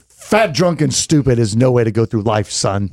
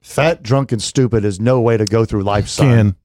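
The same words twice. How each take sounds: First: It is acted with strong character and feeling. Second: It is read plainly, with little feeling.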